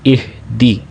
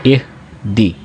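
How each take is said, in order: Both takes have the same delivery.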